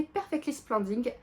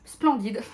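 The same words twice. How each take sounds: First: "Splendid" said the French way, splɑ̃di, final d dropped; "Perfectly Splendid" with a nasal French "Splendid"; heavy French accent on "Splendid", no final d; stumbled English title. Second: "Splendid" said again, louder, with the final d; "Splendid" redone, louder, final d clear; corrected English word. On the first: Real, not acted. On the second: Shown as a demonstration. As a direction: fix "Splendid", sounding the d at the end.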